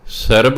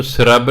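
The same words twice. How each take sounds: First: ਸਰਬ as "sarb", vowel before the r; correct pronunciation. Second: ਸਰਬ misread as "srab", r run onto the s; wrong pronunciation. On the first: Teacher giving the real word, ਸਰਬ pronounced "sarb". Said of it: "ਸਰਬ ਹੁੰਦਾ ਸ਼ਬਦ". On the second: Teacher warning against the spelling, ਸਰਬ misread as "srab". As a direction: say ਸਰਬ as "srab", vowel after the r. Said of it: "ਇਹਨੂੰ ਸਰਬ ਨਹੀਂ ਪੜ੍ਹਨਾ". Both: Shown as a demonstration.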